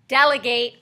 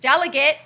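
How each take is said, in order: First: It uses the verb pronunciation of the word. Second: It uses the noun pronunciation of the word. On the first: Giving tasks to other people. "when you tell other people what to do" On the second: A person who represents others. "your student council rep"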